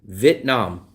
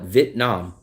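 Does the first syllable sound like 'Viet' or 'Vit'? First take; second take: Vit; Vit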